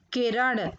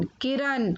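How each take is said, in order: First: Said in the usual way. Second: किरण ending in dental n, "kiran"; mispronounced किरण. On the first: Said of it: "फिर उनका शुद्ध उच्चारण". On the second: Shown as a demonstration. Teacher showing children the error, किरण said with न. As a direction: end किरण on न instead of ण. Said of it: "अशुद्ध शब्द मैंने रखे हैं".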